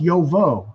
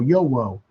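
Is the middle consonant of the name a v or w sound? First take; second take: v; w. First: The middle consonant is a v sound. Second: The middle consonant is a w sound. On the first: The speaker calls it right. "It's pronounced Yovo" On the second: The speaker calls it wrong. "I thought it was Y O W O"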